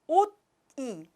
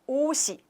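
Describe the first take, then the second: First: The final consonant is cut off before the vowel. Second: The final consonant flows into the next syllable. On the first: The speaker calls it wrong. "not 옷이. It's really difficult to pronounce" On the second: The speaker calls it right. "when we pronounce 옷이"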